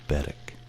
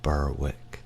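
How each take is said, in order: First: The name is said the Scottish way. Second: The name is said in a non-Scottish way. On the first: The speaker calls it right. "it's Berwick" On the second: The speaker calls it wrong. "It's not Berwick in, in Scotland"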